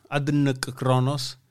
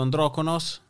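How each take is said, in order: First: Adnkronos spelled out slowly, each sound separate; careful correction. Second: Androkonos read as one fluent word; misread name. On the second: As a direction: say androkonos smoothly, as if that were the name. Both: Shown as a demonstration.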